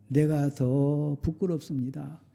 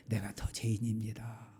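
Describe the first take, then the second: First: Said in the usual way. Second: Hushed whisper of guilt; whispered confession. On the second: Acted. Pastor confessing to the congregation, soft whisper. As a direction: breathe it out as a confession.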